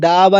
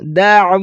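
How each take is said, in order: First: The 'ain sound is left out. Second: The 'ain sound is pronounced clearly. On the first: It changes the meaning of the word. The speaker calls it wrong. "दावा नहीं पढ़ना" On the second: It keeps the intended meaning. The speaker calls it right. "आइन को वाज़े पढ़ना"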